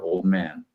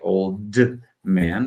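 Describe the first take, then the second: First: The D at the end of old is dropped. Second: The D at the end of old is pronounced. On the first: The speaker calls it right. "but rather old man ... I'm not actually saying the D at all" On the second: The speaker calls it wrong. "we almost never say old man"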